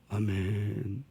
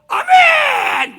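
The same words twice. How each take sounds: First: The amen is said at a low pitch. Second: The amen is said loud at a high pitch.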